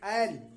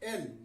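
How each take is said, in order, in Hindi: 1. यह स्वर खुली 'ai' ध्वनि है। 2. यह स्वर खुली 'ai' ध्वनि नहीं है। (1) "ऐकार की मात्रा के साथ बोलेंगे" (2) "ये गलत उच्चारण है।"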